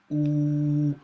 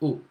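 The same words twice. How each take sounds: First: The vowel is drawn out longer. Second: The vowel is held only briefly. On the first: "the long vowel sound" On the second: "the short vowel sound"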